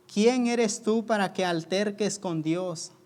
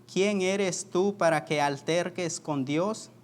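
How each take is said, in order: Both takes have the same delivery.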